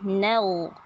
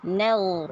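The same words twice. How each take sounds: Both takes have the same delivery.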